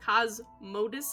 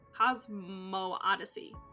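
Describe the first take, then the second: First: Cosmo runs straight into dyssey with one O. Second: An extra O sound separates Cosmo and dyssey. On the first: "That's how I'm gonna say that" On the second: "There's an extra O in there when I say it like that"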